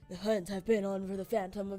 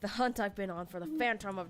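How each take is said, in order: First: It is read in a put-on imitation voice. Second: It is read in the speaker's natural voice.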